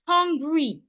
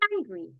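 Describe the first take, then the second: First: The first vowel sounds like 'o'. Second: The first vowel sounds like 'ah'. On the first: The speaker calls it wrong. "An average Nigerian will pronounce that word as hungry. That's wrong" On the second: The speaker calls it right. "The right way to pronounce this is"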